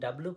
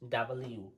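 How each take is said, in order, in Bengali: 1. অক্ষরের নামটি দুটি সিলেবলে সংক্ষেপে বলা হয়। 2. অক্ষরের নামটি পুরোপুরি "double u" হিসেবে বলা হয়। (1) "এতদিন ডাব্লু পড়েছি" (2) "আজ থেকে পড়বো ডাবল ইউ"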